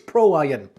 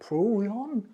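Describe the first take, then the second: First: The name ends in the full word 'iron'. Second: The name ends in a short 'ion' sound. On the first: The speaker calls it right. "it's Pro Iron" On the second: The speaker calls it wrong. "I did have problems pronouncing the name"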